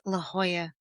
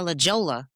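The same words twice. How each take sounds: First: The name is said with Spanish sounds. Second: The name is read out as English spelling. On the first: This is how the local people say the name. The speaker calls it right. "they was just like, [name], it's La Jolla" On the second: The speaker did not yet know the local name. The speaker calls it wrong. "I'm one of those ignorant ones"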